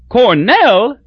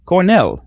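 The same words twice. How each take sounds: First: Cornell rising high and louder in glad surprise; glad cry. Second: Said in the usual way. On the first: A narrator's reading. Crosby delighted to hear Newt went to Cornell, glad high cry. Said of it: "cried Crosby gladly".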